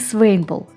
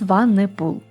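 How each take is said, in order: First: The name begins 'swain' and has two syllables. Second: The name begins 'swa-ne' and has three syllables. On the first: The speaker calls it wrong. "не Свейнпул" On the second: The speaker calls it right. "а именно Сванепул"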